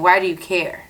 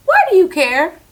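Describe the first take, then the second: First: Said in the usual way. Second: Retold sharp question. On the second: Confronting coworker, retold.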